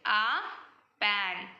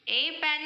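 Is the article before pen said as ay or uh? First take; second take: uh; ay. First: The article is a short uh sound. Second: The article is a full ay sound. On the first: The speaker calls it right. "उच्चारण आ होता है" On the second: The speaker calls it wrong. "ए pan नहीं होगा"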